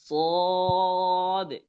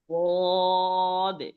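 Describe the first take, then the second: The two takes are said the same way.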